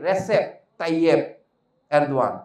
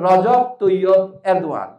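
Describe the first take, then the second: First: The first name has an s sound in the middle. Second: The first name has a j sound in the middle. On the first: The speaker calls it wrong. "আমরা এখন তার নাম উচ্চারণ করতে পারি না। আমরা বলি কি" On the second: The speaker calls it right. "ওর নাম তো"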